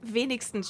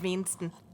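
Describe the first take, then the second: First: It is said with the final s. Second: It is said without the final s.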